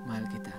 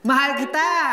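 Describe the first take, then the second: First: It is said in a sad tone. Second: It is said in a happy tone.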